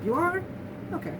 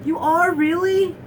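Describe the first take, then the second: First: A brief high question, then drop it; casual acceptance. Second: High, loud mock astonishment; over-the-top disbelief. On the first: Retold or imitated. Someone hearing the news in the best response, casual acceptance. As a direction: imitate mild surprise without any fuss. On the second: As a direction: imitate someone making a huge deal of it. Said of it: "so over the top".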